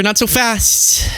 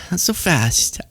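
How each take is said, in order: First: High, slow drawn-out warning; slow tease. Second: Quieter, tossed-off echo; soft repeat. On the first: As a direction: stretch it out teasingly. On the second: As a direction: drop it down like an aside. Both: Acted. Teasing retort, said twice.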